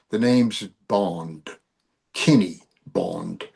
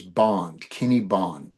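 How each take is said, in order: First: Low, slow, lightly British Bond delivery; mock British accent. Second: Said in the usual way. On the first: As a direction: put on a suave British accent, slowly. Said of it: "in your best British accent".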